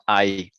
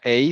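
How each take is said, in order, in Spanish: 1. La vocal suena como 'eye'. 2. La vocal suena como 'ay' en 'say'. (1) "sino AI" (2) "No se pronuncia EI"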